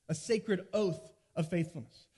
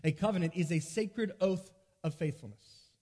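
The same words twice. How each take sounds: First: Deliberate teacher's repeat with "oath" stressed; slow, weighted repeat. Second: Said in the usual way. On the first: Shown as a demonstration. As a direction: say "A sacred oath of faithfulness" slowly, leaning on "oath". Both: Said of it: "but here's one".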